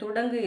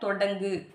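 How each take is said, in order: First: The first vowel is a u sound. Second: The first vowel is an o sound. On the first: The speaker calls it wrong. "துடங்குன்னு சொல்லக்கூடாது" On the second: The speaker calls it right. "தொடங்கு அப்படின்றதான் வந்துட்டு correct"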